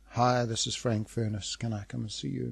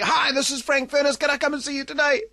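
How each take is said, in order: First: The caller sounds dejected and flat. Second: The caller sounds fully enthusiastic and upbeat.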